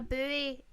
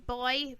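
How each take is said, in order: First: It is said the American way. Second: It is said the British way. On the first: "it's called a buoy on Deadliest Catch" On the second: "U K English is boy"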